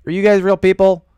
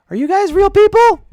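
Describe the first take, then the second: First: Said in the usual way. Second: High mock squeal. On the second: Streamer teasing viewers, asking if they're real, in a high squeal.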